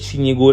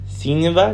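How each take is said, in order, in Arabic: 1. تُنطق النهاية بصوت g. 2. تُنطق النهاية بصوت v. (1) "لا ما بقولش سين يجو" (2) "لا بقول سينيفا"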